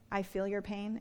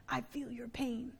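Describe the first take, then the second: First: Said in the usual way. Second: Hushed, soft politician impression; President Clinton. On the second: Preacher showing the congregation his best impression, hushed politician voice. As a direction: imitate a sympathetic politician very softly. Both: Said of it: "That's my best Clinton impression".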